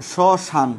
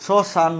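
First: শ্মশান ending on a firm n; silent final vowel. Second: শ্মশান as shoshano, final o sounded; added final vowel. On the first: Teacher reminding students what was said, শ্মশান with no final o. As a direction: stop শ্মশান dead on the n. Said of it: "এখানে বলেছি কি". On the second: Teacher showing what was not said, শ্মশান ending in o. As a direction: add an o after the n of শ্মশান. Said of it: "বলি নাই কিন্তু". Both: Shown as a demonstration.

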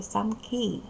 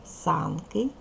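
First: СанКИ, final syllable stressed; санки stressed at the end, on the и; stress on last syllable of санки. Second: САНки, first syllable stressed; санки stressed at the front, on the а. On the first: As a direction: say санки with the beat on КИ. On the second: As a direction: say санки with the beat on САН. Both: Shown as a demonstration. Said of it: "подвійний наголос".

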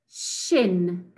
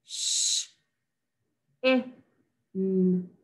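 First: Said in the usual way. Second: Each sound of "Sh-, i-, n," said alone; "Sh-, i-, n," segmented sound by sound for phonics; sound talk. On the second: Shown as a demonstration. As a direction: break shin into "Sh-, i-, n," with gaps. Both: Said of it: "Do it with me".

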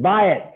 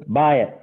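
First: Higher, louder echo; parroted order. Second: Moderately raised trader's command; retold instruction, a little higher; imitated curt order. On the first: Retold or imitated. Newcomer relaying the trader's order by phone, louder parroting. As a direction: imitate a novice repeating a command. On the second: Guy instructing the newcomer on the phone, imitated order.

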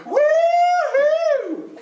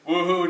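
First: Very high, long falsetto whoop; full-on woo-hoo. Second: Low-effort token woo-hoo; half-hearted woo-hoo. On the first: Leader shows how it's gotta be, full-on high woo-hoo. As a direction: commit fully to a high squeal. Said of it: "It's gotta be". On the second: Leader mimics guys holding back, half-hearted woo-hoo. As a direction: toss it off without commitment. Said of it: "don't wanna go full on it". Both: Shown as a demonstration.

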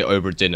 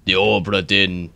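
First: Said in the usual way. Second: Put-on slow, drawn-out pirate accent; playful mock pirate accent. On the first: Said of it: "in a pirate accent". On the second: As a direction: draw the name out like a pirate. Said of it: "say Obra Dinn in a pirate accent".

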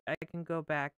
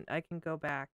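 Both takes have the same delivery.

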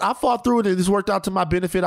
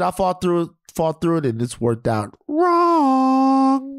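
First: Said in the usual way. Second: High, slow drawn-out letdown; comic wrong ending. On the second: Shown as a demonstration. Man telling the podcast cohost it went wrong, high and slow. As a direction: stretch it out high and pained. Contrasting outcomes of fighting through.

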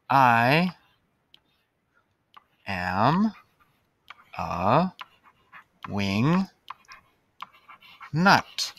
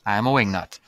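First: Spaced out word by word; slow dictation. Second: Said in the usual way. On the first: Shown as a demonstration. Teacher writing on the board, word by word. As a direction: say it slowly while writing it.

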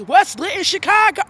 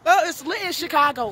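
First: Teasing question about her own slip, falling on "Chicago"; mock repeat. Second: Names the wrong city with a hyped falling call; hyped-up "Chicago" said proudly, full of excitement; excited hype. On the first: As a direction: poke fun at the mistake, "Chicago" said mockingly. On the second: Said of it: "We're in / Michigan". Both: Real, not acted.

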